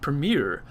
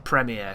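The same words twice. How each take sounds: First: It is pronounced with an American accent. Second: It is pronounced with an English accent. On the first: "I think that's how Americans say it" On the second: "I'm an English person like that"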